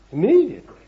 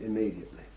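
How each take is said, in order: First: IMMEDIATELY punched high and loud on the first syllables; loud, high stress on "Immediately"; emphatic repeat. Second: Said in the usual way. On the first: Real, not acted. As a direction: hit "Immediately" hard, high then falling.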